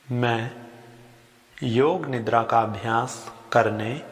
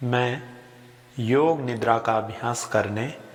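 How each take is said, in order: Both takes have the same delivery.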